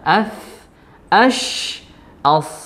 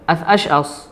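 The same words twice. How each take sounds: First: The final consonants are drawn out with flowing air. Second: The final consonants are cut short, said quickly. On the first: The speaker calls it right. "Yang benar adalah" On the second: The speaker calls it wrong. "contoh yang salah seperti ini. Terlalu cepat gitu, nggak ada aliran suara"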